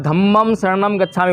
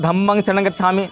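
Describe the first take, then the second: First: "धम्मं शरणं गच्छामि" with each ं closed on the lips as "m"; Sanskrit-style pronunciation. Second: "धम्मं शरणं गच्छामि" with each ं as a nasal "ng"; Pali-style pronunciation. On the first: Teacher quoting film songs to students, Sanskrit "m" endings. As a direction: pronounce "धम्मं शरणं" as "dhammam sharanam". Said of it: "आपने फिल्मों में जो देखते होगे". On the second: Teacher contrasting our chant with film songs, Pali "ng" endings. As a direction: pronounce "धम्मं शरणं" as "dhammang sharanang". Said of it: "और हम बोल रहे हैं". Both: Shown as a demonstration.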